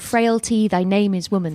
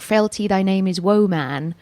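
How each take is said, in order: First: The last word is said as modern 'woman'. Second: The last word is said as 'woe man'. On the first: Women are weak. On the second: A man is full of woe.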